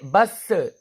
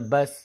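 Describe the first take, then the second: First: The final consonant ends with an echoing bounce. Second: The final consonant ends softly without a bounce. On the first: The speaker calls it wrong. "बस ऐसे नहीं कहना है क्योंकि इसमें कलकला नहीं होगा" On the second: The speaker calls it right. "इसको बड़ी आराम से पढ़ना है"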